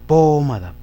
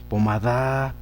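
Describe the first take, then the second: First: The stress is on the first syllable. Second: The stress is on the last syllable. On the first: "Si la llevaran antepenúltima" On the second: "Si la llevaran la da"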